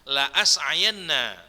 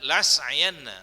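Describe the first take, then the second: First: The hamzah is sounded with a clear glottal catch. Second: The hamzah is dropped and the sounds run together. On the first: The speaker calls it right. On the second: The speaker calls it wrong.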